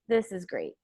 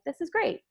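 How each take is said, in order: First: It is said low-pitched with low energy. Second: It is said high-pitched and with excitement. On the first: The speaker is bored or sarcastic. "So you're lowering your voice. Uh, the it, it kind of has like a low energy to it" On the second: The speaker is genuinely pleased. "You are raising your tone of voice in the sense of using more of like a high-pitched voice"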